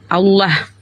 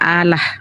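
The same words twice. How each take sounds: First: The L sound is held long, like a double L. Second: The L sound is short, said as one L. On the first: The speaker calls it right. "Harusnya Allah" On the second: The speaker calls it wrong. "Kau itu tulisannya double L, kau baca Allah"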